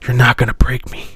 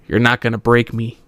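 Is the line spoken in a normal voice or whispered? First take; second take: whispered; normal. First: It is spoken in a soft whisper. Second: It is spoken in a normal full voice. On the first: The speaker calls it right. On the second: The speaker calls it wrong.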